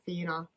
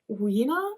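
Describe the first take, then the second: First: The name begins with an F sound. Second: The name begins with a W sound. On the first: "I should be pronouncing it Fina" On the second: "I'm gonna call it Weena"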